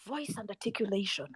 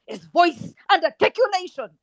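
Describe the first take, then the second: First: Low, very soft echo; softly repeated for emphasis; hushed repeat. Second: Said in the usual way. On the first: Real, not acted. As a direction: drop the voice right down, low and quiet. Repeats phrase, much quieter.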